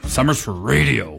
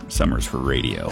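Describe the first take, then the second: First: It is said in an angry tone. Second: It is said in a flirty tone.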